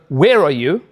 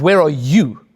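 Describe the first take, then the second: First: The stress is on the word where. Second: The stress is on the word you.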